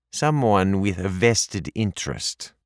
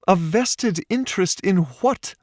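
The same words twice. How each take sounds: First: Put-on lightly accented, falling on Someone; a hint of the kitchen maid's accent; mildly accented evasive answer; stranger's accent. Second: Much higher, rising on what; Paige's high puzzled question. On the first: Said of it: "that very accent". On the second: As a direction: press him with his own words. Paige questions his words. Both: A narrator's reading.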